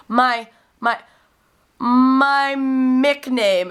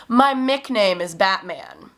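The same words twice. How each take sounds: First: My Mick name very slow, higher and louder; insistent repeat. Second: Slow, lightly voiced small boy saying my Mick name; a mild child voice, my Mick name drawn out; little boy's answer. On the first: Retold or imitated. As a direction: stretch out my Mick name, each word insisting. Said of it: "And so he was like". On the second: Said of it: "And he said".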